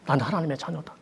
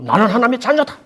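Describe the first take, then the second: First: It is said weakly, without force. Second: It is said strongly, with force.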